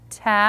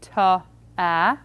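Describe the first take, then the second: First: The two sounds are blended smoothly together. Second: The consonant carries an extra vowel, then another. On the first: The speaker calls it right. "but ta" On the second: The speaker calls it wrong. "or worse yet, ta, a"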